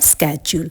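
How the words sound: The word begins with an sk sound. "एक है American एक्सेंट"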